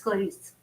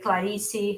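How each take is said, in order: First: It is said with a European Portuguese accent. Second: It is said with a Brazilian Portuguese accent.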